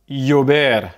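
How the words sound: The double L sounds like 'y'. This is how it is said in Spain. "en Espagne, le double L va plutôt se prononcer y"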